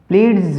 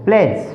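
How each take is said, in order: First: The word is said with an extra d sound. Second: The word is said with the d silent. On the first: The speaker calls it wrong. "प्लीज नहीं बोलना इसको" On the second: The speaker calls it right. "क्योंकि डी silent है"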